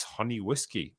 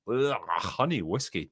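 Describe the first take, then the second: First: Said in the usual way. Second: Slow, grossed-out groan; disgusted. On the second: Real, not acted. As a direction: say it like it tastes awful. Groans at the drink suggestion.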